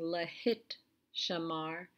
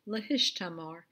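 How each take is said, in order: First: The t sound comes before the sh sound. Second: The sh sound comes before the t sound. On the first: The speaker calls it wrong. "instead of having lahit shamar, which is what we would expect" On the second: The speaker calls it right. "the tav and the shin change places, and we get lahishtamar"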